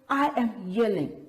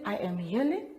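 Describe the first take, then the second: First: It is said in a loud, exclaiming voice. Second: It is said in a plain, calm voice. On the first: The speaker calls it right. "we read that with an exclamation mark" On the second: The speaker calls it wrong. "Do we just say"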